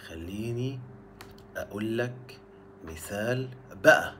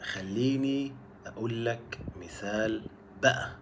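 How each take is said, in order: First: خليني, أقول لك, مثال بقى split by pauses; word by word. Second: Slow, even خليني أقول لك مثال بقى; slow example. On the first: Teacher to learners, repeating the phrase in pieces. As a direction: break it into chunks, a beat between each. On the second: Teacher to learners, slowly spelling out the example. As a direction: ease into بقى slowly with a rising end. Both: Shown as a demonstration.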